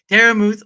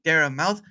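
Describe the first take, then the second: First: The surname is said like 'muth'. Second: The surname is said like 'mouth'. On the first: The speaker calls it right. "I say it correctly" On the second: The speaker calls it wrong. "some people keep saying Dare Mouth"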